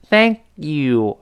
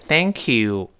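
First: The k is cut off before 'you'. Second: The k runs smoothly into 'you'. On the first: The speaker calls it wrong. "所以不是thank you" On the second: The speaker calls it right. "而是thank you 连到一块儿啊"

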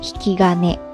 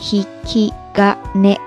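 First: It is said at normal speed. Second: It is said slowly and carefully.

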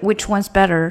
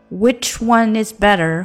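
First: The word 'is' is reduced to 's'. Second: The word 'is' is kept as a syllable.

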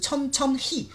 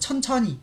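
First: The word is said slowly and separately. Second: The word is said quickly.

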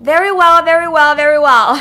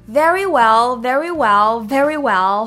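First: It is said at a faster pace. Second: It is said at a slower pace.

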